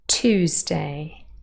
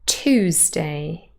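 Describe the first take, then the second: The two takes are said the same way.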